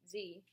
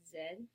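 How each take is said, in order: First: The letter is said as zee. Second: The letter is said as zed. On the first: This is the American way. "we say Z" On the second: This is the English way. "In England, they pronounce it as Z"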